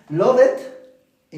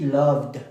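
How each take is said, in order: First: Love it split in two, much higher and louder; wrong love it. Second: Loved ending in a voiced D. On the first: Teacher overdoing the wrong love it. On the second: Teacher showing the correct D ending. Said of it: "con la D". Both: Shown as a demonstration.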